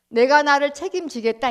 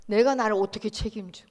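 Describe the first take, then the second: First: 내가 pushed up loud with a rising end, defiant and proud; defiant declaration. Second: Scoffing question. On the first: The flesh boasting to God, with loud defiant pride on 내가. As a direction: declare 내가 나를 책임지겠다 with a proud lift on 내가. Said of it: "이 말이죠". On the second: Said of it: "죽은 나가 나를 어떻게 책임져요". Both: Acted.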